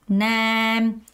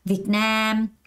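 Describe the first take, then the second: First: Both syllables get an even beat. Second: The stress falls on the second syllable. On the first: The speaker calls it wrong. "한 박자 정박자 있는 사람 없다" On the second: The speaker calls it right. "앞은 살짝 발음하고 두 번째 강세를 주면서"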